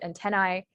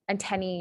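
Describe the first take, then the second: First: The word ends with an 'eye' sound. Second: The word ends with an 'ee' sound.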